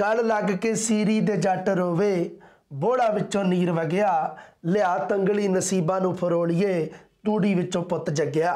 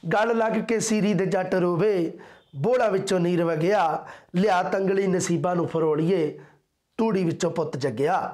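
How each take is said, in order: No difference in how they are said.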